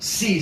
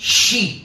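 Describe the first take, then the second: First: The word begins with a plain s sound. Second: The word begins with a sh sound. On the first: The speaker calls it wrong. "બધા સી જ બોલે છે એ જરૂરી નથી" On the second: The speaker calls it right. "ખરેખર તો શીખનારે શી બોલવું જોઈએ"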